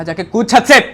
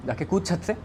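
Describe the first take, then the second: First: High, full-force yelled command; furious shout. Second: Raised pitch, not yet shouting; insistent order. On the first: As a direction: scream the order at the boy. Same order repeated as a shout. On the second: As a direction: press the order home without yelling. First order, before the shouted repeat. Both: Retold or imitated.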